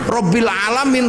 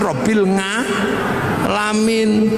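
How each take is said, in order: First: It is said with standard Arabic pronunciation. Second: It is said with a Javanese accent.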